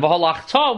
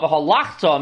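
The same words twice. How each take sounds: First: "v'halachta" with the stress on the last syllable, ta; accent on the tuf. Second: "v'halachta" stressed on the second-to-last syllable, lach; past tense reading. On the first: Teacher demonstrating the correct reading for students, "v'halachta" stressed on the final ta. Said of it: "with the accent on the tuf means". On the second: Teacher contrasting the past-tense meaning for students, "v'halachta" stressed on lach. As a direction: push the "lach" in "v'halachta", not the ending. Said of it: "means, "and you went," past tense". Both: Shown as a demonstration.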